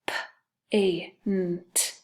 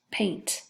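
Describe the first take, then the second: First: "P-A-N-T" tapped out as separate sounds with gaps; sounded out. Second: Said in the usual way. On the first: Shown as a demonstration. Teacher tapping out paint for pupils, "P-A-N-T" sound by sound. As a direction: isolate every sound of "P-A-N-T". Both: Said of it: "Let's tap out paint".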